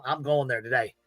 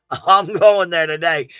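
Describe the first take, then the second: First: Said in the usual way. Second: Louder and slower, leaning hard into "I'm going there today"; laugh, then slowly declare "I'm going there today" loud and firm; emphatic declaration. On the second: Real, not acted.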